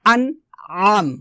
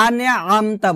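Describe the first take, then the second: First: Slow "আনআম" with squeezed throat on "আম"; pressed ayn. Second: "আনআমতা" with plain vowel, no ayn; light, ordinary a in "আনআমতা"; wrong hamza. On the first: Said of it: "আইনটা চাপ দিতে হবে". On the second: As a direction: run "আনআমতা" without throat pressure. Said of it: "বলা যাবে না". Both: Shown as a demonstration.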